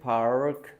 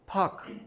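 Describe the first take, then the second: First: The R after the vowel is pronounced. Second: The R after the vowel is dropped.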